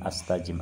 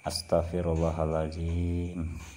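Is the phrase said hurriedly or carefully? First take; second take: hurriedly; carefully. First: It is rushed and clipped into two syllables. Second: Every syllable is said fully and carefully. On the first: The prayer is treated as a mere formality. The speaker calls it wrong. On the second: The prayer is said with real intention. The speaker calls it right.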